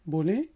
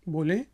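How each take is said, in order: No difference in how they are said.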